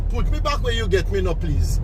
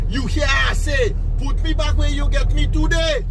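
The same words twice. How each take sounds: First: Put-on spirit baby's demand. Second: Put-on baby repeating his demand. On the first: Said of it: "spoke to him very close to his ears by bawling". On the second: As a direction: press the demand harder the second time. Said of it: "The baby repeat himself by saying".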